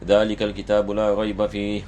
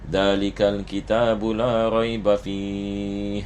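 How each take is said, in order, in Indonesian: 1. Dibaca dengan tempo cepat. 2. Dibaca dengan tempo sedang. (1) "baca dengan cepat" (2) "bacaan yang sedang"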